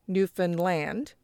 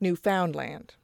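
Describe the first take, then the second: First: The stress is on the last syllable, land. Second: The stress is on the middle syllable, found. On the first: "one of them wanted to put emphasis upon the land" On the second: "the other was adamant that the found was what was stressed"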